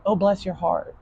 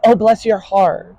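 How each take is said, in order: First: Softer, gentle fake politeness; polite sweet talk. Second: Slow syrupy fake sweetness; sweet talk. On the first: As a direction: say it softly like a polite southerner. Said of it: "you have to say things like". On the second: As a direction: coo it like false flattery. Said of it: "sweet talk doesn't work". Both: Shown as a demonstration.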